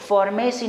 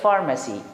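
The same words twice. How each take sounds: First: The last syllable is a full 'ay-see'. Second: The last syllable is a weak 'uh-see'. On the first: The speaker calls it wrong. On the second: The speaker calls it right.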